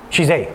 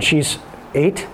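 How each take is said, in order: First: Said in the usual way. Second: EIGHT drawn out with a questioning rise; slowly, lifting EIGHT as if checking; tentative rise on EIGHT; unsure. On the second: Real, not acted. Unsure of age, then confirms.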